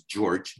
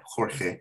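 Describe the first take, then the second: First: Said in the usual way. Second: Jorge with a Spanish rasped H and a final E, HOR-heh. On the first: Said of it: "the American way". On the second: Retold or imitated.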